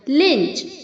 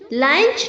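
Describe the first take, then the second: First: The vowel sounds like the 'i' in pinch. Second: The vowel sounds like the 'u' in lunch. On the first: The speaker calls it right. "उसे हमें आई की तरह pronounce करना है" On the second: The speaker calls it wrong. "लंच नहीं होता है"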